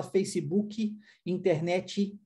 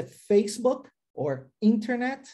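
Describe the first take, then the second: First: "Facebook, internet" the Brazilian way, with added final "i" sounds; Brazilian pronunciation. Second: "Facebook or internet" the US way, stressed on the first syllables; "Facebook or internet" with crisp final consonants, no added vowel; American pronunciation. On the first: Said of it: "aqui no Brasil a gente fala". ("Facebook, internet" à brasileira, com "i" no final) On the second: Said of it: "Enquanto nos Estados Unidos é". ("Facebook or internet" à americana, com ênfase no início) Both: Shown as a demonstration.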